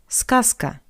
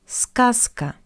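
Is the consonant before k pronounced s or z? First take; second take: s; s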